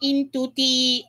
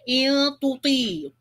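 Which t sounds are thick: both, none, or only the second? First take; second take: none; both. First: Both t sounds are thin and light. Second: Both t sounds are thick and heavy. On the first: "jangan pula ternipiskan ta. Jadi sebutannya" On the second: "Kalau tertebalkan ta jadi"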